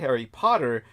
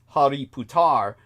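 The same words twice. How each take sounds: First: It sounds like the English name Harry Potter. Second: It sounds like the Sanskrit word Hariputra. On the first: The name is dismissed as a children's story. The speaker calls it wrong. "The moment you say Harry Potter, this dismisses it" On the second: The name means the Son of God. The speaker calls it right. "what you need to say instead is this"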